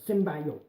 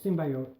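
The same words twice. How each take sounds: First: The word is said forcefully, hitting it harder. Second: The word is said lightly, without extra force. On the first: "the next one kind of hits harder" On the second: "first it's just kind of like symbiote"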